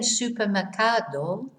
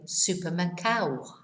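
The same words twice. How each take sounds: First: The ending is said with a clear d. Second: The ending is said without the d. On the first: "instead of saying" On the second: "they will say"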